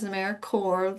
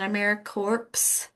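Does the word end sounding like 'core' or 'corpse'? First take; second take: core; corpse. First: The last part sounds like 'core', no final s. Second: The last part sounds like 'corpse', with p and s. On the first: The speaker calls it right. "like Marine Corps or core of an apple" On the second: The speaker calls it wrong. "It's not AmeriCorps"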